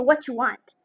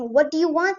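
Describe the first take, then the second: First: The words run together with softened consonants. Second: Each word is said fully and separately. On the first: "you can say what you want" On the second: "instead of saying what do you want"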